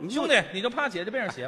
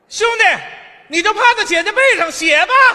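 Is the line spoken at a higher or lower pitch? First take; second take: lower; higher. First: The line is spoken at a lower pitch. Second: The line is spoken at a higher pitch. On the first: "声音再高一点" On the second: "你再高一丁点"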